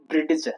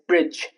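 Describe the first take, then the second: First: The ending is not a plain J sound. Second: The ending is a plain J sound. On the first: The speaker calls it wrong. "not bridge" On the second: The speaker calls it right. "It's bridge"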